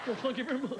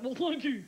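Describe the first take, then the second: First: [name] impression. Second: Mild [name] impression. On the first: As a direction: sneer it like the King. [name] catchphrase.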